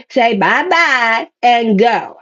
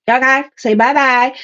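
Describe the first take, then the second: First: Slow, drawn-out singsong farewell; teasing slow goodbye to the past; singsong bye-bye. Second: Said in the usual way. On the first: Pretend. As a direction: sing them off with a slow wave goodbye. Waving off the past.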